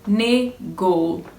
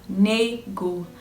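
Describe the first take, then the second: No difference in how they are said.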